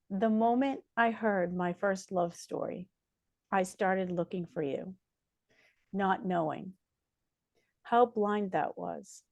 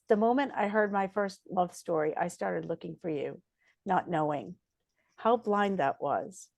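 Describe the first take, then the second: First: It is read slowly and softly. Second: It is read at a normal pace.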